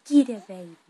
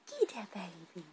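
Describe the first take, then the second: First: Playful tickle attack. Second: Said in the usual way. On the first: Real, not acted. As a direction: pounce on it loudly. Mother playfully tickling her baby.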